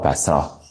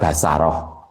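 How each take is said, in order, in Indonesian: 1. Tidak ada bunyi vokal yang diucapkan di antara s dan r. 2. Ada bunyi vokal yang diucapkan di antara s dan r. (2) "wa fathima bisa juga dibaca basaroh"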